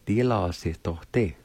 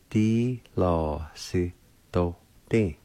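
First: Said in the usual way. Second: "Di lo si do din" said slowly and carefully; slow demo. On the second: Shown as a demonstration. Teacher repeating platform slowly for learners. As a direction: ease through "Di lo si do din" slowly. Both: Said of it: "is pronounced like this".

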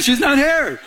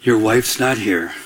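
First: High-pitched mock reminder; joking, raised-pitch retelling; comic repeat. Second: Low, slow, deliberate statement; God's word retold low and unhurried; very clear. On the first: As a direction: repeat the verdict high, for laughs. Comic repeat of God's verdict. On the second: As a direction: deliver it clearly as a deep, measured verdict. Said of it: "he said this very clearly to me".

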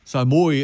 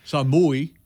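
First: Ça mouille repeated, sah mooee, falling at the end; Cajun ça mouille. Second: Ça mouille said sah mooee, the L silent; Cajun ça mouille. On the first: Guest repeating the Cajun for rain: ça mouille as sah mooee. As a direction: say ça mouille again, sah mooee, and let it fall. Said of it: "it means it's raining". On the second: Guest showing host the Cajun for rain: ça mouille said sah mooee. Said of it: "Is mouillère the common thing to say?". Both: Shown as a demonstration.

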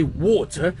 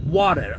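First: Water said the British way, crisp T and no R; water with a clean British T. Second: Imitating an American water, lower and drawn out. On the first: Shown as a demonstration. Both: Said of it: "and you say something like".

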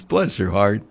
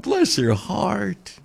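First: Said in the usual way. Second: "Bless her heart" drawn out slowly in a Southern drawl. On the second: Shown as a demonstration. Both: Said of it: "that's what we say here in the South".

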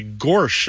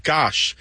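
First: "gorsh" with R before the sh; gosh with an R. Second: Said in the usual way. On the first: Shown as a demonstration. Host showing the dialect form, "gorsh" with an added R. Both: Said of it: "instead of".

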